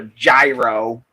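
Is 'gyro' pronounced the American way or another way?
American. Gyro is said the American way.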